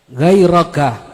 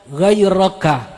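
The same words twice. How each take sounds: Both takes have the same delivery.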